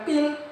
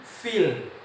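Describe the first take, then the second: First: The word begins with a p sound. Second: The word begins with an f sound. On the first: The word no longer means elephant. The speaker calls it wrong. "bukan pil" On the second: The word means elephant. The speaker calls it right. "tapi bi ashabil fil"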